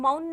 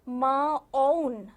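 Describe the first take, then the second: First: The consonant and vowel are joined smoothly together. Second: The consonant and vowel are said separately, apart. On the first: The speaker calls it right. "हम मौन ना बोलकर" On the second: The speaker calls it wrong. "अब हमने माँ अलग से बोल दिया और औ अलग से बोल दिया, साथ में नहीं बोला"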